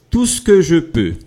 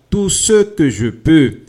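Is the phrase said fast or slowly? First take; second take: fast; slowly. First: The phrase is said quickly, with ce reduced. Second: The phrase is said slowly, with ce said fully. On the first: This is everyday speech. "a gente fala bem rápido" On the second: This is formal or careful speech. "se você estiver falando algo bem formal ou se estiver também falando uh, bem devagar"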